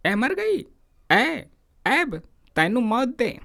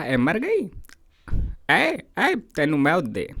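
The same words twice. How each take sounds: First: High, furious yelling at his wife; angry shout. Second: Mock angry shout. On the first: Retold or imitated. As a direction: scream curses at her. (पत्नी पर चीखता हुआ गुस्सा) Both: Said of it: "चीख कर बोला".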